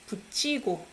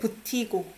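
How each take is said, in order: First: The second syllable begins with a ch sound. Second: The second syllable does not begin with ch. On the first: The speaker calls it right. "This one I pronounce it as 치" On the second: The speaker calls it wrong. "You don't say 붙이고"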